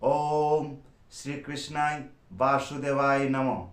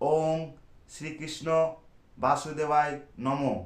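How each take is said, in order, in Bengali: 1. কৃষ্ণ বলা হয় শেষে অতিরিক্ত 'ay' যোগ করে। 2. কৃষ্ণ বলা হয় শেষে 'ay' ছাড়া। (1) "যেটা সঠিক উচ্চারণ" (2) "এইটা কিন্তু ভুল উচ্চারণ।"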